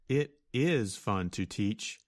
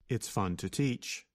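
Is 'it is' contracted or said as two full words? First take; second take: full words; contracted. First: It is said as two separate, stronger words. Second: It is contracted into one weaker syllable.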